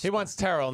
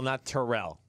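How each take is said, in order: First: "Terrell" stressed on the first syllable; front-stressed TER-ul for "Terrell"; preferred pronunciation. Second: "Terrell" stressed on the second syllable, lower; back-stressed tuh-RELL for "Terrell", low; wrong pronunciation. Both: Shown as a demonstration.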